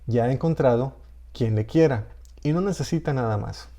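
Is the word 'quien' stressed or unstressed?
unstressed. The word 'quien' is unstressed. "o puede no estar"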